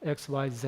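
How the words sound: The letter Z is said the British way. "elsewhere people say X Y Z"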